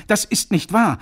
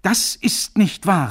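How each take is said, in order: First: Loud, high cry, weight on wahr; piercing cry. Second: Slow, loud and high, nicht hammered hard; slow piercing repeat. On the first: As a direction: hurl it out. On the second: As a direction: drag out each word, punch nicht. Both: Acted. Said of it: "rief er durchdringend".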